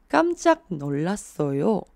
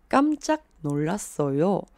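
The two takes are said the same way.

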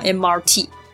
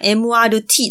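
First: It is said in standard English. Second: It is said in Japanese katakana style.

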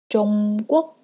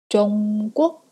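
The two takes are said the same way.

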